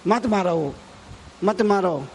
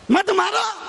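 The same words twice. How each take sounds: First: Said in the usual way. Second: High cry to stop, imitating the saint; acted urgent command. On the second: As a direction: call out to halt a beating. Saint's plea repeated, raised. (ऊँची आवाज़ में रोकने की पुकार)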